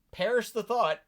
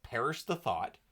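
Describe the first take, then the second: First: Higher, louder mock-shocked perish the thought; hammed-up indignant; mock horror. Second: Deadpan it; lightly sarcastic mutter; dry sarcasm. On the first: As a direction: gasp it out in fake outrage. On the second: Retold or imitated. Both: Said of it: "there's so much sarcasm".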